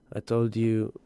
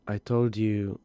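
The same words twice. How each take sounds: The two takes are said the same way.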